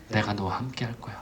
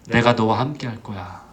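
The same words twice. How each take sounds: First: Very soft, low, near-whispered promise; hushed reassurance. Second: Low, steady promise; reassuring. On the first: God's promise to Moses repeated, hushed and low. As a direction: drop almost to a whisper, reassuring. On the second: God answering a discouraged Moses, low and reassuring. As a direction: reassure calmly in a lowered pitch. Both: Acted.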